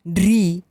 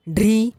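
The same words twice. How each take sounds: First: ढ्री with a held, falling ee; ढ्री said as long "dhreee"; long vowel. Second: ढ्री with a short i, rising; ढ्री said as quick "dhri"; short vowel. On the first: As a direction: stretch the ee in ढ्री. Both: Shown as a demonstration. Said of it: "बारह खड़ी के format में".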